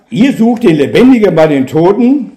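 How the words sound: It is said in a reproachful, accusing tone. The listeners are being rebuked for their mistake. "im Sinne eines Vorwurfes"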